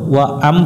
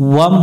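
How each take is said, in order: First: It is split into two separate syllables. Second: It is said as one joined syllable. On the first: The speaker calls it wrong. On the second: The speaker calls it right.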